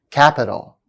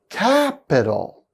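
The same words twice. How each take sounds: First: Said in the usual way. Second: "Capital" slowly, first syllable high; slow, stressed first syllable. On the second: Shown as a demonstration. Teacher showing third-from-end stress, slow demo. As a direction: lean on the start of "Capital". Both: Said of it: "stress on the third syllable".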